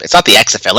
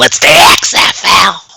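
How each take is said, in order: First: Said in the usual way. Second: Drawn-out, higher growly promoter bellow; Vince McMahon. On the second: Shown as a demonstration. Showing co-host how to announce the league, in a Vince McMahon impression. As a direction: stretch each letter like a wrestling boss's big announcement. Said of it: "You gotta do it in Vince McMahon".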